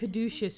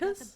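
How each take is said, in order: First: The name is said as caduceus. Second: The name is said as Caudicus. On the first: "I've been pronouncing it caduceus for years" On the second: "Caudicus is how you pronounce that?"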